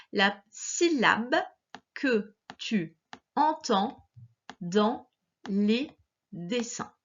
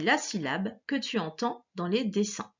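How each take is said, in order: First: "la syllabe que tu entends dans les dessins" slowly, pausing between words; word-by-word dictation. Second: Said in the usual way. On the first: Shown as a demonstration.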